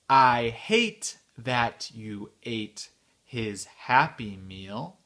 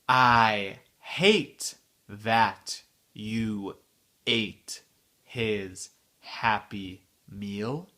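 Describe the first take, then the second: First: The sentence is spoken somewhat faster. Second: The sentence is spoken slowly. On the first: "un peu plus vite" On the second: "la phrase entière, lentement"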